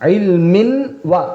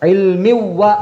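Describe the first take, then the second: First: The n sound is clearly heard before wa. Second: The n sound merges into the following w. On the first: The speaker calls it wrong. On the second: The speaker calls it right. "ഇൽമി വ എന്നാക്കുക ആദ്യം"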